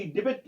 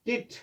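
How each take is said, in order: First: डिबिट with an audible B; wrongly sounded B. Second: डिट with no B sound; silent B. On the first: Teacher shows a misreading, B sounded in डिबिट. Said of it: "डिबिट नहीं है". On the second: Teacher models the correction, B silent in डिट. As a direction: say डिट, leaving the B out. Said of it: "इसमें बी silent रहता है". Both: Shown as a demonstration.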